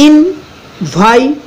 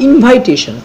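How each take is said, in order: First: invitation very slowly, syllable by syllable, higher; split in four. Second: Said in the usual way. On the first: Shown as a demonstration. Teacher easing pronunciation for students, invitation in four slow parts. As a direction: pause between ইন, ভাই, টে, শন in invitation. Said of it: "চারটে ভাগে ভাগ করছি". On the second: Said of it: "নিজেদের সুবিধা উচ্চারণ করার জন্য কী করি".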